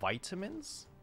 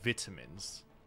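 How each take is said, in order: First: It is said with an American pronunciation. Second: It is said with a British pronunciation. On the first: "But I think in America, you guys call it vitamins?" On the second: "when I learned English in the beginning, I learned in a British school. So I always called them vitamins"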